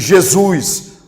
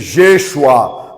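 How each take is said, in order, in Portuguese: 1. O nome é dito com pronúncia do português brasileiro. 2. O nome é dito com pronúncia hebraica. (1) "na pronúncia tupiniquim cearense" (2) "na pronúncia hebraica"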